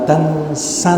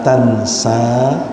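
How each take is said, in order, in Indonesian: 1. Vokal akhirnya dibaca pendek. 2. Vokal akhirnya dibaca panjang. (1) "maka sa harus dibaca pendek dengan membuang ya di belakangnya" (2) "Hati-hati kita membacanya sa-nya panjang"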